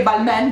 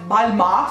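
First: Balmain said "bal-MEN"; Balmain as balmen. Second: Balmain said "bal-MA", rising. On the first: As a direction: keep e and n in Balmain. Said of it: "sto per dire Balmain di nuovo". (Balmain detto "balmèn") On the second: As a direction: cut the n from Balmain. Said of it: "vedete com'è". (Balmain detto "balmà") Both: Shown as a demonstration.

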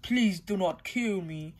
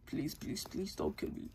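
First: Said in the usual way. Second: Much softer, whispered pleading; whispered begging. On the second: Acted. Eggman begging Sonic for mercy in a soft whisper. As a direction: beg in a frightened whisper. Villain begs for life.

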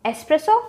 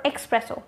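First: "Espresso" as es-PRESS-o; correct s sound. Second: "espresso" as ex-PRESS-o; mispronounced with X. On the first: Teacher offering viewers the first option, correct s sound. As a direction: say "Espresso" with a plain s, no k. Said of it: "just remove that X". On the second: Teacher offering viewers the second option, mispronounced with X. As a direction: add a k before the s in "espresso". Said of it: "espresso with an X". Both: Shown as a demonstration.

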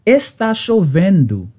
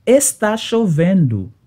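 No difference in how they are said.

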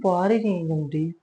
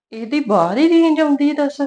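First: Said in the usual way. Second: Loud, high scornful jab; mother-in-law mocking the bride's excuse, loud and high; mocking outburst. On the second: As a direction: spit out ਬਾਹਰ ਹੀ range with loud, high scorn. Mother-in-law grumbling, mocking daughter-in-law.

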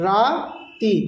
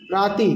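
First: "রাতি" split as "রা - তি"; teacher sounding out "রাতি" slowly in two parts; broken into syllables. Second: Said in the usual way. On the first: Shown as a demonstration. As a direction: stretch "রা", pause, then "তি". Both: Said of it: "একটু প্রনাউন্সিয়েশনটা আলাদা হবে".

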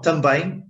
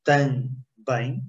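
First: Said in the usual way. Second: "também" split as TAM, pause, BÉM; divided into syllables. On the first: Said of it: "you had some difficulties in também". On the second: Shown as a demonstration. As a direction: say "também" slowly, one syllable at a time. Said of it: "try to divide it in two syllables".

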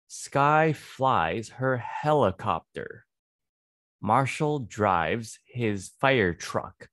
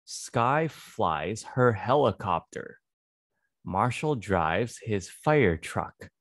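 The two takes are said the same way.

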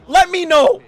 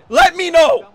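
The two takes are said the same way.

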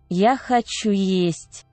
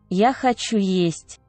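No difference in how they are said.

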